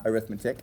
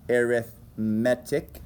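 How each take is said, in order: First: The stress falls before the third syllable. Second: The stress falls on the third syllable. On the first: The speaker calls it wrong. "not arithmetic" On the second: The speaker calls it right. "pronounced arithmetic with the emphasis on the third syllable"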